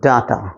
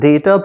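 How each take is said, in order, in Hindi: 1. पहला स्वर 'dah' जैसा बोला जाता है। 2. पहला स्वर 'day' जैसा बोला जाता है। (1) "न कि डाटा" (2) "इसको हम डेटा प्रोनाउंस करते हैं"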